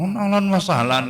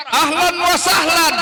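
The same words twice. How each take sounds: First: Said in the usual way. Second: High, slow calling greeting; demonstrated Arabic welcome. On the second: Shown as a demonstration. Teacher showing how to welcome children in Arabic, high drawn-out greeting. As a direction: draw the welcome out and pitch it high.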